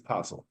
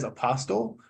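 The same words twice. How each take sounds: First: The T in the middle is not pronounced hard. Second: The T in the middle is pronounced hard. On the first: The speaker calls it right. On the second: The speaker calls it wrong.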